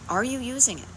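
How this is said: The question is asked in a warm, loving tone. It is a gentle, caring question. The speaker calls it right. "I got my heart involved"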